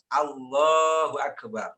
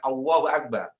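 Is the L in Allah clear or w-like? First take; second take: clear; w-like. First: The L in Allah is clear and held long. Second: The L in Allah sounds like a w. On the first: The speaker calls it right. "panjangnya di lam" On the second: The speaker calls it wrong. "jangan Allahu Akbar"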